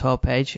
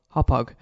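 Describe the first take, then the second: First: The second syllable sounds like 'age'. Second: The second syllable sounds like 'hog'. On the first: The speaker calls it wrong. "I've been pronouncing it as Hopage, as that's the way it looks to me" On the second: The speaker calls it right. "So there you go, Hop Hog"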